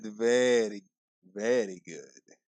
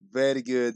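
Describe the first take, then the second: First: Low, slow Borat impression; a lightly done Borat accent; playing Borat, slow and low. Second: Said in the usual way. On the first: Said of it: "Try to do the Borat".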